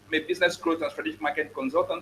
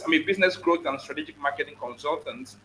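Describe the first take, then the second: First: It is said fast. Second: It is said slowly.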